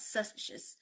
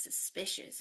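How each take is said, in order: First: "suspicious" stressed on SUS, the middle weakened; wrong first-syllable stress. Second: "suspicious" with SPI stressed, first syllable reduced; stress on second syllable. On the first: Teacher showing students wrong word stress, first syllable stressed. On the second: Teacher drilling word stress with students, second syllable stressed. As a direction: lean on the middle of "suspicious". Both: Shown as a demonstration. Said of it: "The stress is on the second one".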